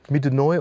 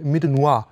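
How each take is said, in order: First: The name is said with a local dialect pronunciation. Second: The name is said with a French pronunciation. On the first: The speaker calls it right. "das ist richtig odenwälderisch" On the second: The speaker calls it wrong. "ich wollte es erst französisch aussprechen"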